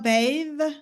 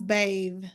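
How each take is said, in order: First: The word ends with a th sound. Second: The word ends with a different sound.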